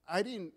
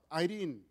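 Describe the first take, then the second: No difference in how they are said.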